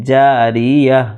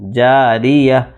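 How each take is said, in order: First: The word ends on a short -a sound. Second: The same.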